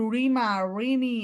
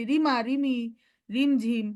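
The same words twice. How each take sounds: First: রিমা, রিমি with thick rounded r; wrong heavy r. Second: Ordinary thin r in রিমা, রিমি, রিমঝিম; correct light r. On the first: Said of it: "এরকম বলি না". (ভারী র দিয়ে রিমা, রিমি) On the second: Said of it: "আমরা কি বলি?". (পাতলা র দিয়ে রিমা, রিমি) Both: Shown as a demonstration.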